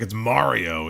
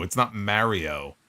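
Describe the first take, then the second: First: MARIO with a broad "ah", as MAH-rio; corrective pronunciation of Mario. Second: MARIO with a flat "a" as in marry; mispronounced Mario. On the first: Listeners correcting the host's Mario, insistent MAH-rio. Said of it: "They're like". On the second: Listeners mocking the host's wrong Mario, slow MARE-io. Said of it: "that's the wrong way of saying it". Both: Retold or imitated.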